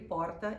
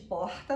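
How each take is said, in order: First: The r is said in a São Paulo accent. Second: The r is said in a Rio accent. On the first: "porta em São Paulo" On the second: "porta no Rio de Janeiro"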